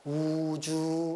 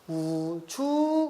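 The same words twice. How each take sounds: First: The word is said on a low pitch. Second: The pitch starts low and then rises. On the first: "낮은 소리니까 우주 이렇게 가는 거지" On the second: "낮았다가 높아지는 거니까 우주 이렇게 가는 거고"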